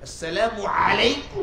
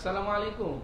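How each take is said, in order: First: The greeting is pronounced with exaggerated, drawn-out sounds. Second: The greeting is pronounced in a plain, ordinary way. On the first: The speaker is showing off a pious style. "একটু স্টাইল করতে গিয়ে" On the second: It is an ordinary everyday greeting. "সাধারণ ভাবে"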